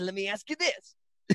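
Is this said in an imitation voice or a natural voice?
imitation. It is said in a put-on imitation voice.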